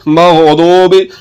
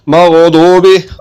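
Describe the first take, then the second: No difference in how they are said.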